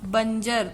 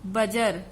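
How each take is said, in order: First: It has a nasal sound before the j. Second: It has no nasal sound before the j. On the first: The speaker calls it right. "अनुस्वार आएगा" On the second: The speaker calls it wrong. "बजर नहीं होता है ना"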